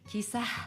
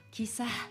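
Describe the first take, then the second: The two takes are said the same way.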